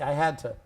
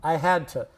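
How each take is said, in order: First: The word 'to' is reduced to a weak form. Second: The same.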